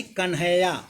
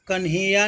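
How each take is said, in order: First: कन्हैया with an open "ai", kan-hai-ya; ai vowel. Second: कन्हैया with a narrow "e", kan-he-ya; wrong pronunciation. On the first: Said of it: "अय की मात्रा होगी". (कन्हैया में "ऐ" की मात्रा) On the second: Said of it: "कन्हैया नहीं". (गलत उच्चारण, कन्हैया को "कन्हेया" बोलें) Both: Shown as a demonstration.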